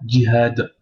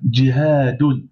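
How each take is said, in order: First: The word stops sharply on its final consonant. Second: The word ends with a full '-un' syllable. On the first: The word is read on its own. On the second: The word continues into following words.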